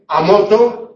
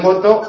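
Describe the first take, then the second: First: An extra a sound is added at the start. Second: The word starts directly with the m sound. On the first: "prótesis" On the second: "en lugar de moto"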